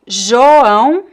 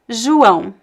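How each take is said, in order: First: The first vowel sounds like 'o'. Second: The first vowel sounds like 'u'. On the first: "the first O sound can be pronounced as O" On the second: "or U"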